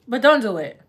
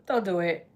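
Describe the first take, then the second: First: Said in the usual way. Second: Laughing through the warning. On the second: Shown as a demonstration. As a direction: chuckle as you repeat it.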